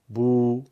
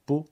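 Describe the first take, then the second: First: بو stretched to two beats, louder; long u, two beats. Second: بو with a short one-beat vowel. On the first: Teacher stretches بو with the long vav. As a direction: hold the vowel of بو twice as long. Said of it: "واو مدی ... دو برابر بکشیم". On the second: Teacher shows short بو with damma. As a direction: clip بو to a single beat. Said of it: "با ضمه یک ضربیه". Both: Shown as a demonstration.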